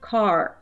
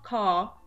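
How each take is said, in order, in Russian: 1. Заканчивается сильным звуком «r». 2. Здесь долгий гласный и нет звука «r». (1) "В американском английском начинает звучать как «car». Мы добавляем раскатистый, сильный звук «р»" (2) "с длинным звуком"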